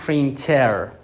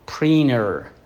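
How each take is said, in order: First: The t after the n is clearly pronounced. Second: The t after the n is dropped.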